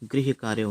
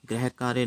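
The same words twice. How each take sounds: First: The first word has an 'ri' sound after g. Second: The first word has no 'ri' sound after g. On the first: The speaker calls it right. "ग के नीचे री ऋषि वाला आता है" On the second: The speaker calls it wrong. "गृह कार्य नहीं होता है"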